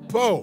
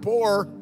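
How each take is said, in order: First: The word is said as po, without the R. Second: The word is said fully, with the R. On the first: This means extremely poor. "We couldn't afford the other O and R" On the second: This means ordinarily poor. "not poor"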